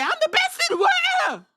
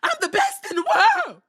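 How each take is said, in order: First: Even higher, loud hammed-up boast; mock big shout. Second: High, loud hammed-up boast; mock big shout. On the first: Repeating the wrestler's boast, shouted higher and louder. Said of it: "He said". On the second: Retelling the wrestler's closing line, shouted high and loud. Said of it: "he said". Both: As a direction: belt it out like a wrestler's brag.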